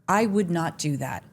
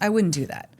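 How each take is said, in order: First: 'Would not' is said as two full words. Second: 'Would not' is contracted to 'wouldn't'. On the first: It sounds like written language. The speaker calls it wrong. "But we don't talk that way" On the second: It sounds like natural speech. The speaker calls it right. "We're like"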